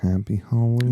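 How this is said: It is said in a flat, creepy way.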